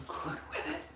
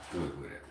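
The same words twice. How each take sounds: First: Very high, airy little voice; mock squeaky taunt. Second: Low repeat. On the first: Teasing an online hater, very high mock squeak. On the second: Pretend. Repeating the taunt to the hater, low deadpan. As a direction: lower and softer, deadpan.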